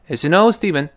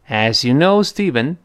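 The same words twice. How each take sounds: First: The phrase is spoken quickly with a reduced vowel. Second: The phrase is spoken slowly with a full vowel. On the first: "如果语速特别快呢" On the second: "这是慢速"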